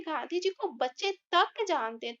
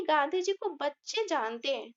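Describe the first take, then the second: First: तक lifted as the key word; stress on तक. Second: Said in the usual way. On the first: Shown as a demonstration. Teacher stressing तक for the class. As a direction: hit तक in बच्चे तक. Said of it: "लेकिन हम बोल रहे हैं". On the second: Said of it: "अगर हम इसको ऐसे बोलते हैं".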